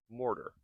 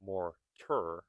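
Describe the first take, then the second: First: MORTAR as mor-der; relaxed American T in MORTAR; soft flapped T. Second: MORTAR split as mor-TUR with a true T; careful MORTAR with an aspirated T; hard T. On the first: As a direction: tap the T lightly like a D in MORTAR. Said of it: "I am not saying mortar, but mortar". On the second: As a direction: sound out the T crisply in MORTAR. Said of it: "I am not saying". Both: Shown as a demonstration.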